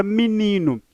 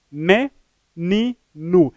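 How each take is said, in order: First: Said in the usual way. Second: "menino" slowly as me, ni, no; syllable by syllable. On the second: Shown as a demonstration. Teacher dividing the word for viewers, "menino" split into me - ni - no. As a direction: break "menino" into three beats with clear pauses. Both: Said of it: "Dividindo a palavra menino".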